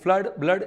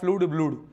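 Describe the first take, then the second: First: The vowel is a short 'uh' sound. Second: The vowel is a long 'oo' sound. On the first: "फ्लड बोलेंगे इसको" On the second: "ये ऐसे बोलेंगे फ्लूड ब्लूड"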